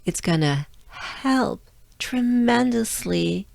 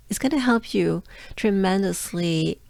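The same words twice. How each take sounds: First: "tremendously" drawn out and higher, powered by breath; breathy H on "help", pause before "tremendously"; breath-driven emphasis. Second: Said in the usual way. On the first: Shown as a demonstration. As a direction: push "help" out on a long, audible breath. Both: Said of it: "think of your breath as your, your engine".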